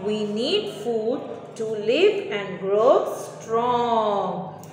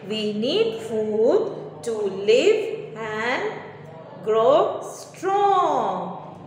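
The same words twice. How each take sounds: First: Slow, clear model answer; slow dictation. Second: Very slow answer split into chunks; slow dictation. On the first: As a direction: spell out the answer for pupils. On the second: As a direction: pause before grow strong for copying. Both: Shown as a demonstration. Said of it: "So the answer is".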